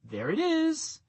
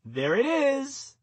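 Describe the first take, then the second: First: Light, high "There it is" said through a smile; cheerful high "There it is", quick and light. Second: Slow, high "There it is" through a smile; leisurely high "There it is", savoured with a smile; smiling, drawn out. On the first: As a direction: pitch "There it is" well up, smiling as you spot it. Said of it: "smile, and say". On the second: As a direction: stretch "There it is" out slowly, high and pleased. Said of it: "smile again and say". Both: Shown as a demonstration.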